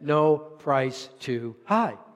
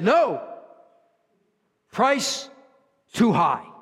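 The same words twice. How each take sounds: First: It runs on with no pause after "no". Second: There is a pause after "no".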